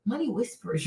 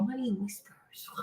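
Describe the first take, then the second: First: Said in the usual way. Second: Softer, slower, barely breathing the words Money whispers; hushed whisper. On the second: Shown as a demonstration. Advising women on classy speech, whispers softly. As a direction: let Money whispers drop to a soft slow hush. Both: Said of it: "like, they whisper".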